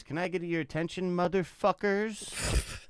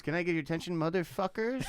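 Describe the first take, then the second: First: High, drawn-out party DJ shout into the mic; DJ hype voice. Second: Mock club DJ working the room. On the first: Retold or imitated. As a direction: ham up a cheesy club DJ grabbing the crowd. DJ hyping crowd on mic. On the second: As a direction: play a fifty-something DJ trying to sound cool.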